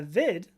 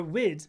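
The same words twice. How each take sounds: First: "vid" starting with a V sound. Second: "wid" starting with a W sound, Irish root. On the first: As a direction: say "vid" with a clear V, as in "video". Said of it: "excuse me". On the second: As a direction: say "wid" with rounded lips on the W. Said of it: "in, in, uh, in Irish". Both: Real, not acted.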